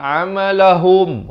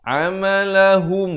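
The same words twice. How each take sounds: First: The final vowel sounds like o. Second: The final vowel is a short u. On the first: The speaker calls it wrong. "bukan amalahum" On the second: The speaker calls it right. "H U M, bukan H O M"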